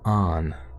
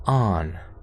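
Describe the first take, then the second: First: The vowel is open, like an 'ah'. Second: The same.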